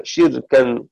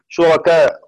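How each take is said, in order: First: شركا with a kasra on shin, a still ra and tanwin on kaf; Shu'ba's reading. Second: شركاء with a damma on shin, a fatha on ra and a final hamza; Hafs' reading. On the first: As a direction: say شركا as shirkan, closing on nunation. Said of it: "بكسر الشين ... وتنوين الكاف". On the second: Teacher announcing Hafs' reading of the word, clear. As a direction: say شركاء as shurakā' ending on the hamza. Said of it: "بضم الشين ... دون تنوين شركاء". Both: Shown as a demonstration.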